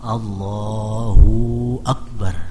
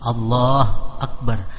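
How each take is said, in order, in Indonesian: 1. Vokal 'hu' dipanjangkan seperti 'hoo'. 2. Vokal 'hu' dihilangkan sepenuhnya. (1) "hu-nya kepanjangan" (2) "Hu-nya jangan dimatiin"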